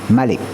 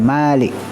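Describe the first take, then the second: First: The first vowel is short. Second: The first vowel is long. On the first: The speaker calls it right. "tak boleh panjang" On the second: The speaker calls it wrong.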